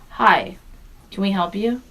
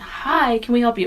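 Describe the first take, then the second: First: It sounds annoyed, as if bothered. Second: It sounds friendly and welcoming.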